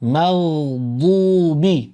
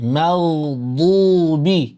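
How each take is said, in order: The two takes are said the same way.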